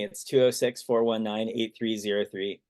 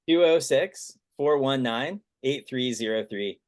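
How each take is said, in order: First: It is said at a quick, normal pace. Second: It is said slowly and deliberately.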